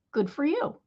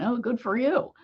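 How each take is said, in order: First: Sincere, pleased well done; mean it, a real congratulation; honest heartfelt good for you; genuine praise. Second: Dry mock congratulation; a light sarcastic good for you. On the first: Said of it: "in a genuine, "Yay, you" spirit". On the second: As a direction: say it so the praise sounds fake. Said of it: "like, a sarcastic tone". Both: Shown as a demonstration.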